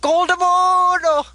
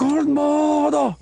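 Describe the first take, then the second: First: High, slow, stretched-out squeaky name call; chipmunk voice. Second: High, slow, drawn-out shout of the name; villain name call. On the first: Trying out the villain's name call in a chipmunk voice. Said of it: "It sounded like a chipmunk". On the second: Cohost nails the villain's name call in a high, slow voice. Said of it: "There we go". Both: Retold or imitated.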